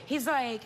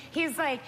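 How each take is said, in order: Both takes have the same delivery.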